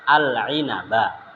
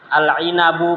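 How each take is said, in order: First: The word ends with an a vowel. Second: The word ends with an u vowel. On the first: The speaker calls it right. "ya fathah" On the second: The speaker calls it wrong. "benar salah? Salah"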